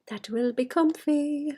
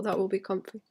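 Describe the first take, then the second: First: Slow, breathy whisper of that will be comfy; hushed slow whisper to herself. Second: Said in the usual way. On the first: Acted. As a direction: whisper it slowly like a secret. Whispered repeat of comfy line.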